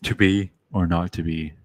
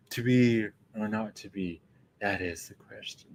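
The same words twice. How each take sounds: First: Lightly voiced, matter-of-fact Arnold; blunt Arnold. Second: Softer, drifting off into airy nothing; airy, ephemeral. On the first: Arnold's Hamlet, lightly voiced, blunt and decisive. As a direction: toss it off flat and decisive, a hint of Arnold. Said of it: "Arnold just goes". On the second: Retold or imitated. The classic Hamlet musing the line, soft and airy. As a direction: float it away, dreamy and ephemeral. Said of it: "it's all ephemeral and ... very airy".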